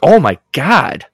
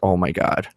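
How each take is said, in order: First: It sounds interested and excited. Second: It sounds annoyed, like rolling eyes.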